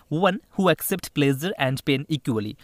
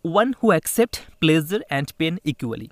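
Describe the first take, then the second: First: Very slow, word by word; slow re-read. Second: Very slow, word by word, louder; teacher dictating an English question to students, very slowly; slow dictation. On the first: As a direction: spell the sentence out again for students. Teacher re-reading the question. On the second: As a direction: read it out slowly for the class to copy. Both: Shown as a demonstration.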